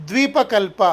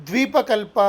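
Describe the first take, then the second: No difference in how they are said.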